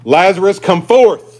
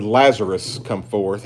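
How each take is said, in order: First: Higher, louder commanding cry; loud call. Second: Said in the usual way. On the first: Acted. Preacher voices Jesus calling Lazarus from the tomb, loud cry. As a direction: cry out to summon the dead. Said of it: "he cried out with a loud voice".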